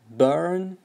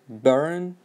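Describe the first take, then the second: First: An American accent with the r clearly pronounced. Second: An American accent with the r clearly pronounced.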